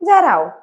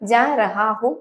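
First: The phrase is run together quickly and shortened. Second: Every syllable of the phrase is said fully. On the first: "നമ്മൾ സ്പീഡിൽ പറയുമ്പോൾ എങ്ങനെയാ, ജാറാവും എന്ന് പറഞ്ഞാൽ മതി" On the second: "ജാ റഹാഹും എന്നാണ് പറയുന്നതെങ്കിലും"

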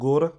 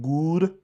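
First: The vowel sounds close to a short o. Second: The vowel sounds like a long oo. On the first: This is the Punjabi way of saying it. "Punjabi ਵਿੱਚ ਔਂਕੜ ਦੀ ਆਵਾਜ਼ ਜਿਹੜੀ ਹੈ ਉਹ ਹੋੜੇ ਵਰਗੀ ਹੁੰਦੀ ਹੈ" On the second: This is the Hindi way of saying it. "Hindi ਵਿੱਚ ਔਂਕੜ ਦੀ ਆਵਾਜ਼ ਹੁੰਦੀ ਹੈ ਦੁਲੈਂਕੜ ਵਰਗੀ"

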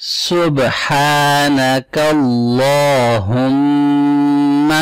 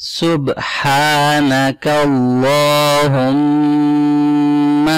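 No difference in how they are said.

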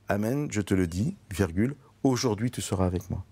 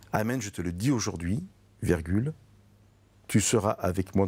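First: The break comes right before 'aujourd'hui'. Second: The break comes right after 'aujourd'hui'. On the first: Entry into paradise happens this very day. The speaker calls it wrong. "Et non pas la lecture classique" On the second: The promise is spoken today; paradise comes later. The speaker calls it right. "je fais attention à ma lecture et je lis de la façon suivante"

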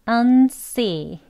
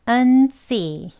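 Both takes have the same delivery.

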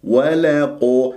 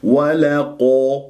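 No difference in how they are said.

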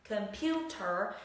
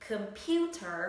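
Both takes have the same delivery.

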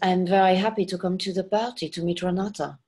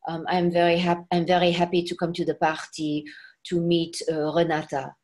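First: A light French accent without French R sounds. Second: A heavy French accent with French R sounds. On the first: The speaker calls it right. "we had to take away all the R's. So we made it" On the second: The speaker calls it wrong. "instead of saying"

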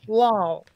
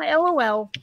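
First: It is said as one single-syllable word. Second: It is spelled out as three separate letters. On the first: "I always thought LOL was lol" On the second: "Not LOL"

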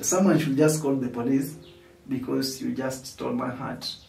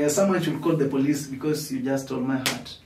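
First: The sentence is said at a slow pace. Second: The sentence is said at a quick pace.

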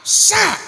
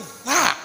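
First: It begins with a plain hissing s sound. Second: It begins with a th sound, tongue between teeth. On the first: The speaker calls it wrong. "Salah siap. ... kunaon ka nasin" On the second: The speaker calls it right. "Ieu mah sa"

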